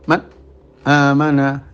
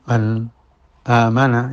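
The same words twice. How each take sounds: First: A brief stop follows n, with no nasal hum. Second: A brief stop follows n, with a nasal hum. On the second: "disaktah tapi tetap ada dengung"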